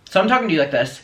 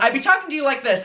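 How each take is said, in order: First: It is said with low energy. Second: It is said with high energy.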